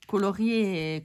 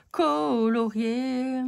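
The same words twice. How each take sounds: First: Said in the usual way. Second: Colorié stretched slowly, every syllable spelt out; colorié, slow and careful, as if triumphant; drawn-out word. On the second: Shown as a demonstration. Finally getting the word right.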